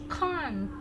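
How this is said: It has a British accent. "Tapi kalau yang British can't"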